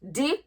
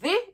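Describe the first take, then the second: First: The word begins with a hard d sound. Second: The word begins with a soft th sound. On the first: "in Patois" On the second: "in English"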